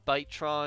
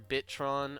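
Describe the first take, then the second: First: The first syllable sounds like 'bite'. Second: The first syllable sounds like 'bit'. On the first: The speaker calls it wrong. "I keep wanting to say byte like terabyte" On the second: The speaker calls it right. "I think it is truly just Bitron"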